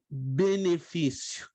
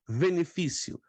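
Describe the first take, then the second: First: The word begins with a B sound. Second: The word begins with a V sound. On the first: The letter is written with the dot. "Se eu coloco o ponto no meio" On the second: The letter is written without the dot. "eu deixo de colocar o ponto, tem o som de V"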